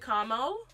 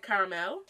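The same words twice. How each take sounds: First: The word is said with two syllables. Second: The word is said with three syllables. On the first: Other people say it this way. "I know people say caramel" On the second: The speaker's own community says it this way. "I say caramel because we pronounce every syllable"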